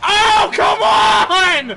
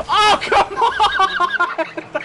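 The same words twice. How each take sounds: First: High, loud, slow drawn-out complaint; exasperated shout. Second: High, slow complaint breaking into laughter; laughing exasperation. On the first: Streamer shouting at a missed shot, exasperated. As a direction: wail the frustration long and loud. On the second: Streamer laughing at a missed shot, exasperated. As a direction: let the frustration dissolve into a laugh. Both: Real, not acted.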